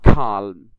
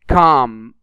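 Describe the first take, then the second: First: The L is pronounced aloud. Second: The L is not pronounced. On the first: The speaker calls it wrong. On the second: The speaker calls it right.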